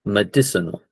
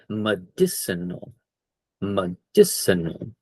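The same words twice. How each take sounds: First: Said in the usual way. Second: Slow model word. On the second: Shown as a demonstration. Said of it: "I should have said that word".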